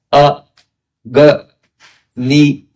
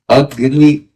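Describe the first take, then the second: First: A, G, Ni spoken as separate pauses between syllables; letter by letter. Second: Said in the usual way. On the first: Shown as a demonstration. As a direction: break Agni into A, G, Ni one at a time. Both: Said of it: "we hear each letter one by one".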